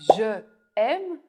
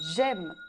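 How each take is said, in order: First: The vowel of 'je' is kept before 'aime'. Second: The vowel of 'je' is dropped before 'aime'.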